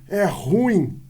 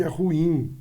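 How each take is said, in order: First: "ruim" as one syllable, stress on the U; mispronounced ruim. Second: "ruim" in two syllables, stress on the final IM; "ruim" with the stress moved to the end; correct ruim. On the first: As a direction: say "ruim" wrongly as RUIM with a punched U. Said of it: "Quando ele fala assim". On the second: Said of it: "ao invés de". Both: Shown as a demonstration.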